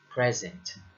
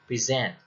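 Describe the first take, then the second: First: The stress is on the first syllable. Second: The stress is on the second syllable. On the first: The speaker calls it wrong. "not present" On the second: The speaker calls it right. "Most two-syllable verbs have stress on the second syllable. ... then you pronounce it as present"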